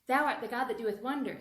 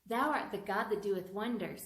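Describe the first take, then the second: First: It is said at the fastest speed. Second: It is said at a faster speed.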